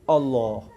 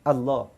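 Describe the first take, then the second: First: The vowel in Allah sounds like 'o'. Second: The vowel in Allah sounds like 'a'. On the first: The speaker calls it wrong. "Ramai yang sebut o" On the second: The speaker calls it right. "sebut betul-betul"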